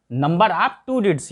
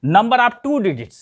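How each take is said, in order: First: Number of two digits repeated slowly and a little softer; quiet slow echo for the class; teacher repeating the English term slowly. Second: Number of two digits said slowly, two stressed; slow, clear classroom read-out; teacher spelling out the English term slowly; slow teaching recital. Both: Shown as a demonstration. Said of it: "मतलब".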